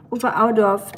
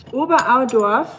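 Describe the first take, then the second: First: Oberaudorf said level and settled with the final f clear; confirming Oberaudorf. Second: Oberaudorf read out with a rising, unsure tune, a bit louder; questioning Oberaudorf. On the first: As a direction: state Oberaudorf firmly as a confirmation. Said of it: "that's Bavaria". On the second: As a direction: ask Oberaudorf back like a question, rising at the end. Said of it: "What region of Germany are you from?". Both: Retold or imitated.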